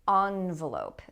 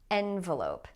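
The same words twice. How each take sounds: First: The first vowel is not an 'eh' sound. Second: The first vowel is an 'eh' sound. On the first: "But some people say envelope" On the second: "This is with the eh sound as in bet"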